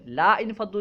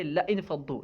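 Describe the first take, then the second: First: لا انفضوا with a long "laa" before "infaddu"; wrong long vowel. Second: لا انفضوا with a short "la" straight into "infaddu"; corrected short vowel. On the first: Teacher showing students the miswritten form, long-vowel لا انفضوا. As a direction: draw out the alif in لا انفضوا. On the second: Teacher correcting the book's misprint, short-vowel لا انفضوا. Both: Shown as a demonstration. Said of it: "لام کے بعد حمزہ سے پہلے جو الف ہے".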